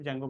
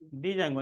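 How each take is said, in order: First: It begins directly with a 'j' sound. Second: It begins with a separate 'dee' syllable. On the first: The speaker calls it right. "सिर्फ जैंगो बोलते हैं, डी silent है" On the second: The speaker calls it wrong. "डी जैंगो नहीं"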